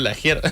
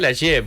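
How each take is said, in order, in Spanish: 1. El nombre se pronuncia con sonidos españoles. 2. El nombre se pronuncia con sonidos franceses. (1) "toda mi vida me dijeron Lagier" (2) "en realidad es de origen francés. Se pronunciaría sí"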